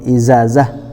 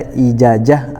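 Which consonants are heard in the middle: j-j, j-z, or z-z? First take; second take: z-z; j-j. First: It has a z sound then another z sound. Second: It has a j sound then another j sound. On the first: "ataupun izazah" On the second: "Jangan dibaca ijajah"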